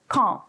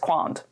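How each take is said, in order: First: The word is said in standard French. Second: The word is said in a badly distorted way. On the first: The speaker calls it right. "you pronounce it as quand" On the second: The speaker calls it wrong. "which is really bad"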